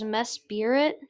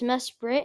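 First: It is said like 'Mess Spirit', with 'spirit'. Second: It is said as 'Mesprit', without 'spirit'. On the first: The speaker calls it wrong. "I always thought was Mess Spirit" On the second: The speaker calls it right. "but it's Mesprit"

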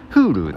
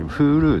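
First: Its pitch pattern matches the word Kyushu. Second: Its pitch pattern differs from the word Kyushu. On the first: The speaker calls it right. "公式での正しい読み方は九州に近いっていう感じで" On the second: The speaker calls it wrong. "今私Hulu って言ってますけど"

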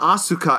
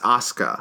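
First: The name is said with an English-style pronunciation. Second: The name is said with a Japanese-style pronunciation. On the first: The speaker calls it wrong. "It's not Asuka" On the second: The speaker calls it right. "It's Asuka"

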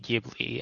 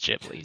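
First: The name is pronounced the Italian way. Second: The name is pronounced the Japanese way. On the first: "technically the Italian word it's taken from would be Ghibli" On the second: "the official Japanese pronunciation, is Ghibli"

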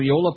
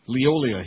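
First: The name ends in a plain 'la' sound. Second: The name ends in an added 'lia' sound. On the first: The speaker calls it right. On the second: The speaker calls it wrong.

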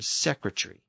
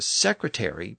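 First: The ending is reduced to a short 're'. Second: The ending has a full 'airy' vowel. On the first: "from ary to just re" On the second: "shortened that suffix from ary to just re"

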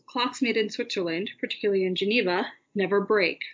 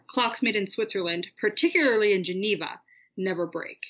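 First: The middle phrase has short, light pauses around it. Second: The middle phrase has longer, sharper pauses around it. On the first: The middle phrase is set off with commas. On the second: The middle phrase is set off with em dashes.

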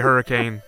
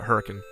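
First: It is said with the standard pronunciation. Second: It is said with the local pronunciation. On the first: The speaker calls it wrong. "if you say Hurricane, they correct you" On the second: The speaker calls it right. "everyone around there pronounces it Hurricane"

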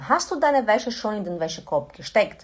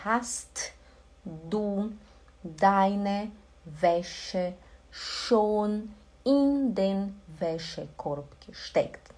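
First: It is said at natural conversational speed. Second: It is said slowly and carefully.

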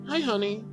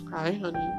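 First: It is said in a plain friendly tone. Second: It is said in a flirtatious, romantic tone.

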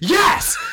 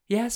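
First: The word is said in an exaggerated, dramatic way. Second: The word is said in a plain, ordinary way. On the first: This is the unexpected delivery the actor chose. "there's no way the context is written to the tone he says it" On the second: This is the delivery the script would suggest. "you'd think he'd be like"

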